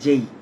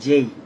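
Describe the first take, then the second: No difference in how they are said.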